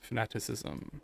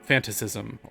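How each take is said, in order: First: The word is said with a middle 'nat' syllable. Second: The word is said without a middle 'nat' syllable. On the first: The speaker calls it right. "like uh, fanatic" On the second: The speaker calls it wrong. "which of course is not how you actually say it"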